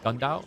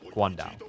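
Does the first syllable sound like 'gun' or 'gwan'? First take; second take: gun; gwan. First: The first syllable sounds like 'gun'. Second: The first syllable sounds like 'gwan'. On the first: The speaker calls it wrong. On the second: The speaker calls it right.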